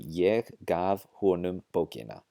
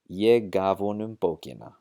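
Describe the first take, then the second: First: Every sound is clear, including the h. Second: The h is dropped and two words merge. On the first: "very careful pronunciation" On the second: "drop the hao sound out of the word honom"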